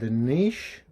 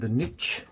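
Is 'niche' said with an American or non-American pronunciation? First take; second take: non-American; American. First: Niche is said with a non-American pronunciation. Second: Niche is said with an American pronunciation.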